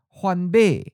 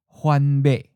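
First: The last syllable falls from a high pitch. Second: The last syllable is mid pitch and cut short. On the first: "the eighth tone is often of a high falling tone"

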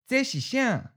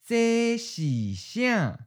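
First: It is said at a natural, normal speed. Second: It is said slowly and deliberately. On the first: "One's natural speed" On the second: "and then slow"

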